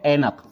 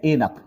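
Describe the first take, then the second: First: ऐनक with open "ai" at the start; correct ai vowel. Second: ऐनक with plain "e" at the start; wrong vowel. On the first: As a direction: say ऐनक as "ai-nak". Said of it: "ऐ की मात्रा". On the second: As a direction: say ऐनक as "e-nak", narrow first vowel. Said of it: "ऐनक तो ये लिखा है". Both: Shown as a demonstration.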